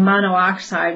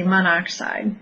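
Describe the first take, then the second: First: "monoxide" as mono-oxide, with two separate o sounds; both o's sounded. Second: "monoxide" run together as mon-OX-ide; one o dropped. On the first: Teacher shows students the unshortened form, "monoxide" said as mono-oxide. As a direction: say "monoxide" with an extra o: MON-oh-OX-ide. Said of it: "instead of saying monoxide". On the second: Teacher shows students the simplified name, "monoxide" said as mon-ox-ide. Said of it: "we just say monoxide". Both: Shown as a demonstration.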